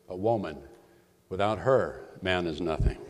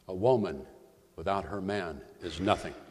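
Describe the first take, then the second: First: A pause comes after her, before man. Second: Pauses come after woman and after man.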